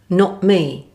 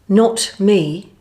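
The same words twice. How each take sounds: First: The final T is dropped with a glottal stop. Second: The final T is fully pronounced.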